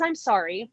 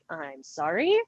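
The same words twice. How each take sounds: First: The voice falls at the end. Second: The voice rises at the end.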